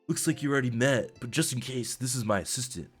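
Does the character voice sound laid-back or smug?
laid-back. The voice sounds relaxed and laid-back. The speaker calls it right. "lean back in my chair, put my feet up... Yeah, that sounds better"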